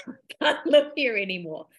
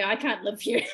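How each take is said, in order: First: Retold ultimatum with a laugh in it; lightly laughing mock ultimatum; laughing retelling. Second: Said in the usual way. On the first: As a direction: quote the ultimatum through amusement. Laughs repeating partner's ultimatum.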